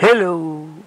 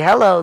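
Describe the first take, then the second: First: Hello is said in an exaggerated, stereotyped manner. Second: Hello is said in a plain, neutral way. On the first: "You say" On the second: "you don't say hello like that"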